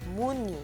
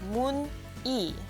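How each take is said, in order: First: The final consonant carries over into the next syllable. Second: The two syllables are said separately, unlinked. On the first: "it's pronounced muni" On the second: "spelled mun-i"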